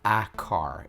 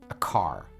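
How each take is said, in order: First: The article is full and clearly pronounced. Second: The article is short and reduced. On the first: The speaker calls it wrong. "it's not a car" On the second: The speaker calls it right. "The same thing is true about a and an"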